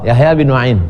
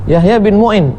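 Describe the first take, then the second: First: The last name has an 'a' after the 'm'. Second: The last name has a 'u' after the 'm'. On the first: The speaker calls it right. "yang betul adalah Yahya bin Ma'in" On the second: The speaker calls it wrong. "dia akan baca Yahya bin Mu'in"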